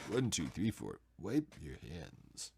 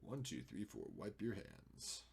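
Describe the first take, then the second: First: Low, slow, drawn-out impression; Sulu. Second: Soft, low, lightly voiced impression; Sulu. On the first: Repeating the count as a hammed-up low Sulu impression. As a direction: lean into a deep, measured starship-officer voice. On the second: Muttering to self while editing, as a soft hint of Sulu. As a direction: count off quietly, drawing out the last words. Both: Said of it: "why I say that like Sulu".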